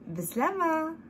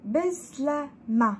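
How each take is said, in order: First: The word is said quickly. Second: The word is said slowly and carefully. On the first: "Et en rapidos" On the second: "Je vais dire tout doucement"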